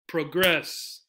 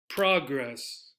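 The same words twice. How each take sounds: First: The stress is on the second syllable. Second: The stress is on the first syllable. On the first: It is used as a verb. "Second syllable" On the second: It is used as a noun.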